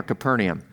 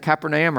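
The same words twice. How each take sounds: First: "Capernaum" with a reduced first vowel and NEE for NAY; alternative pronunciation. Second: "Capernaum" with a long AY in the third syllable; first pronunciation option. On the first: Pastor offering the other way to say it, "Capernaum" as kuh-PER-nee-um. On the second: Pastor asking how to say the town, "Capernaum" as kap-er-NAY-um. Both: Shown as a demonstration. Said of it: "How do you say that?".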